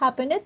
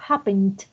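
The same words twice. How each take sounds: First: The -ed ending is said as a separate syllable. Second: The -ed ending is a faint final t sound. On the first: The speaker calls it wrong. "uno no dice happened" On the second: The speaker calls it right. "sino dice happened. Y la T es como un imaginario al final"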